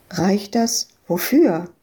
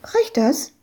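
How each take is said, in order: First: Said in the usual way. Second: Put-on high, hopeful little girl asking; high child voice. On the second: Little girl asks Ewke if her money is enough, high child voice. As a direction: ask it like an eager small girl.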